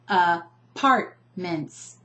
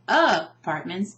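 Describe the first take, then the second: First: The stress is on the second syllable. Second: The stress is not on the second syllable. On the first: The speaker calls it right. "I'm emphasizing the second syllable" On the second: The speaker calls it wrong. "we don't say apartments"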